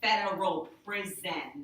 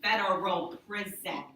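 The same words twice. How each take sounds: First: Federal said slow and firm; slow, emphatic federal prison; stress on federal. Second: Federal hit louder; stress on Federal. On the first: Retold or imitated. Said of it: "That's how he said it". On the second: Shown as a demonstration. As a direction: punch Federal, not jail. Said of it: "Not jail, prison".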